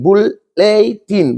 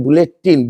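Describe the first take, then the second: First: बुलेटिन slowly as बुल-ले-टिन, three separate parts; split into syllables. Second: Said in the usual way. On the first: Shown as a demonstration. Teacher showing students the three syllables, slow and separated. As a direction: stretch out बुल... ले... टिन, each distinct. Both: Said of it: "बुल अलग है".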